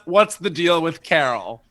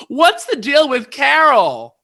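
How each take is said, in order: First: Said in the usual way. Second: High, loud, stretched-out blurt; shouted drunken question. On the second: Retold or imitated. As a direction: blurt it to the whole room. Re-enacts drunken question at mic.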